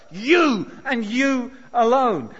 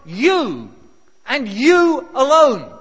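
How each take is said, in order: First: YOU and YOU alone, stressed but less loud; finger-pointing emphasis again. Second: YOU and YOU alone, both hit hard, loud and slow; finger-pointing emphasis. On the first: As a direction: repeat the pointing YOU, a little more restrained. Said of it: "That's the sense of the word". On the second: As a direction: jab each YOU like pointing a finger at the crowd. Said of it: "it is a finger-pointing word". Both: Shown as a demonstration.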